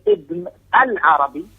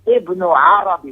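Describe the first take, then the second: First: "Ibn al-Arabi" with a clear "al" before Arabi; with Alif Lam. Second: "Ibn Arabi" said slowly with no "al" between the names; no Alif Lam. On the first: Teacher naming the Maliki scholar, "Ibn al-Arabi" with the al. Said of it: "if you say Ibn al-Arabi". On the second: Teacher telling students to drop the Alif Lam, "Ibn Arabi" without al. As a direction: say "Ibn Arabi" plainly, Ibn then Arabi, no al. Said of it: "without the Alif Lam". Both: Shown as a demonstration.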